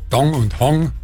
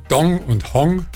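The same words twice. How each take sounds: The two takes are said the same way.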